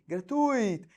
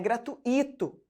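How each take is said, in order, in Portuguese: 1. O u e o i se juntam numa só sílaba. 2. O u e o i se separam, com acento no i. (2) "não é gratuito. Para ser gratuito... Separa, separou, põe acento"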